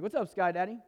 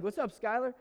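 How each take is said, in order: First: Nickname greeting. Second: Put-on high, bright hey to an old friend passing by; cheery call-out. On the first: Retold or imitated. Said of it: "I actually called him Sky Daddy". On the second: Jogging past his estranged friend, a loud cheery greeting. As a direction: toss the greeting out as you run past.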